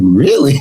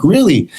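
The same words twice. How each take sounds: First: Drawn-out, rising "Really?"; mock piqued interest, stretched into a question; suddenly intrigued. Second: Higher, quick falling "Really?"; surprised retold reply. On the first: Singer hearing they pay well, suddenly intrigued. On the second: Singer answering buddy's French-market pitch, surprised. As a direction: react with mild, passing surprise.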